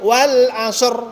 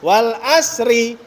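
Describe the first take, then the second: First: The word ends on a bare consonant. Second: The word ends with an added vowel. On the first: The speaker calls it right. "harus diwakafkan" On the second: The speaker calls it wrong. "Tapi kadang dibaca"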